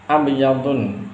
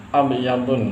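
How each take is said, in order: The two takes are said the same way.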